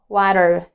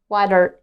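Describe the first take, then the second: First: The middle T is a quick D-like flap. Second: The middle T is a quick D-like flap.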